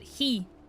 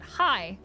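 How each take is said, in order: First: The vowel sounds like 'ee'. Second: The vowel sounds like 'eye'. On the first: One speaker in the app says it this way. "one guy pronounces it he" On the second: Most speakers in the app say it this way. "half of the people pronounce it high"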